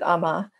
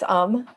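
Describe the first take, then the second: First: The word ends with an added vowel sound. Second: The word ends without an added vowel sound. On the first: The speaker calls it wrong. "some people pronounce it Ama" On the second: The speaker calls it right. "but it's Am"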